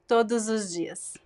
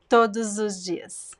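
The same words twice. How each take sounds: First: The final s links to the vowel as z. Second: The same.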